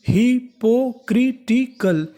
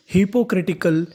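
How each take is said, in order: First: hypocritical drawn out slowly and pitched higher; syllable by syllable. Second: Said in the usual way. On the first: Shown as a demonstration. Teacher building hypocritical for students, each syllable separate and slow. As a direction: chop hypocritical into hi, po, kri, ti, kal. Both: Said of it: "तो meaning बनी".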